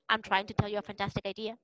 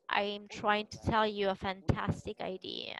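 First: The sentence is spoken quickly. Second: The sentence is spoken very slowly. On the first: "I'm trying to do it quicker and quicker and quicker" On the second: "You are going to speak very slowly, as if it were a thriller"

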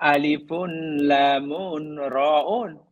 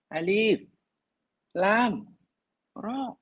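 First: Each letter name ends with an added -un. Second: Each letter name ends in a stopped consonant. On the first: The speaker calls it wrong. "Kita tak baca itu" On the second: The speaker calls it right. "Kena baca mati semuanya"

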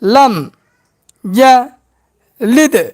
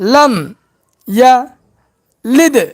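No difference in how they are said.

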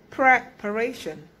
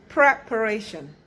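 The two takes are said the same way.

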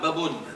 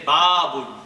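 First: The first vowel is short, not stretched. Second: The first vowel is long and stretched. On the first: The speaker calls it wrong. "if you don't stretch the alif, it will become babun" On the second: The speaker calls it right. "So make sure you say babun"

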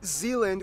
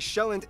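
First: The name is said with English pronunciation. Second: The name is said with Danish pronunciation. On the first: The speaker calls it wrong. "not Zealand" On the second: The speaker calls it right. "I'm gonna pronounce the location names in their proper Danish context"

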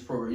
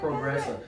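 First: It is said the French way. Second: It is said like the English word progress. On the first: The speaker calls it right. "You got it right" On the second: The speaker calls it wrong. "Not progress"

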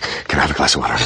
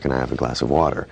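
First: It is said intensely, like Jack Bauer. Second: It is said calmly, like a normal person.

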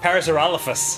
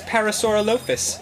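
First: The middle part is not said like 'sore'. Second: The middle part is said like 'sore'. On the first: The speaker calls it right. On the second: The speaker calls it wrong.

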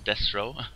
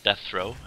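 First: The middle consonant is pronounced as s. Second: The middle consonant is pronounced as th. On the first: The speaker calls it right. "with S, not TH" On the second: The speaker calls it wrong. "It's not Deathro"

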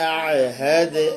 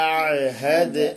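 Both takes have the same delivery.

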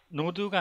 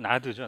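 First: The vowel sounds like 'oh'. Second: The vowel sounds like 'ah'. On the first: The speaker calls it wrong. "노드가 아니고" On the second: The speaker calls it right. "나드죠, 나드. 발음이"

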